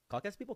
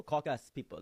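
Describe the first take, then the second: First: High, questioning repeat; puzzled echo. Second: Put-on firm African-accented confirmation; imitated African friend. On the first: Retold or imitated. Teller querying his friend's claim, high puzzled question. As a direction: echo it back as a surprised question. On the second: African friend confirming his claim, imitated accent. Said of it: "He says".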